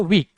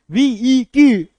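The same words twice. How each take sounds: First: Said in the usual way. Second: वीई की stretched into loud separate syllables; mock-split "weak" as वीई की, much louder and higher; wrongly drawn out. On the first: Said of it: "एक बार में बोलते हो". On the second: Shown as a demonstration. Teacher showing how nobody says weak, exaggerated syllable split. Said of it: "ऐसे तो नहीं बोलते हो".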